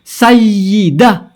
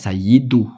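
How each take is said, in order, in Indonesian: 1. Kata itu berakhir dengan vokal 'a'. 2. Kata itu berakhir dengan vokal 'u'. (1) "Khobarnya kana" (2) "Gimana ceritanya dibaca sayyidu?"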